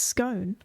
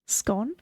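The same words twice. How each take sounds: First: The vowel is long, rhyming with cone. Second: The vowel is short, rhyming with con. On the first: The speaker calls it right. "It's cone, it's scone" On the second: The speaker calls it wrong. "if it was like no E, S C O N, scone"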